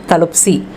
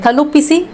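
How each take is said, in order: First: The vowel before the s is dropped. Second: The vowel before the s is pronounced.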